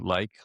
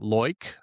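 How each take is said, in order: First: The vowel sounds like 'eye', a plain accent. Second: The vowel sounds like 'oy', an Australian accent.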